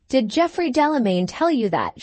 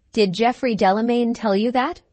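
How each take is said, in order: First: Repeated question, insistent, falling at the end; a touch of roused firmness. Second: Said in the usual way. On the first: A narrator's reading. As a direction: demand an answer with a mild ring. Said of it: "there was a ring in her voice".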